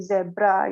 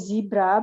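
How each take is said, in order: First: It is said with a British pronunciation. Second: It is said with an American pronunciation. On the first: "in British English uh, the vowel in the first syllable itu menjadi e, jadi zebra" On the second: "Kalau di Amerika oke okay, memang zebra"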